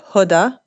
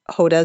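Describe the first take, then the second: First: The name has an Arabic pronunciation. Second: The name has an English-style pronunciation. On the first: "the Arabic pronunciation would be" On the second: "but Hoda is okay"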